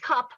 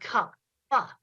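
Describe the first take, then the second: First: The word ends without an extra released syllable. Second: The final consonant is released as an extra syllable. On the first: "switched back and forth between saying cup and cup pa"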